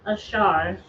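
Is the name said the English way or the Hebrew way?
Hebrew. The name is said with a Hebrew pronunciation.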